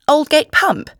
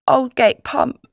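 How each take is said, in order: First: High, loud astonished echo; exclaiming. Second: Slow, higher-pitched little lad's answer; miserable boy. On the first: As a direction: repeat it in amazement, voice shooting up. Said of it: "I exclaimed". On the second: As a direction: give the place slowly, as a wretched boy. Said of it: "The miserable boy mumbled something". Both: A narrator's reading.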